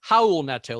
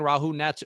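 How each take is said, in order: First: The name is said with a Brazilian pronunciation. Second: The name is said with an English pronunciation.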